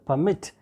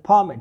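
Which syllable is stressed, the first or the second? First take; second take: second; first. First: The stress is on the second syllable. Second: The stress is on the first syllable. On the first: It is used as a verb meaning to allow. "When this verb word will be used as a verb, the stress will be on the second syllable" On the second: It is used as a noun meaning an official document. "when this word will be used as a noun, the stress will be on the first syllable"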